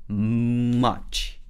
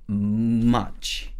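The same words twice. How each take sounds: No difference in how they are said.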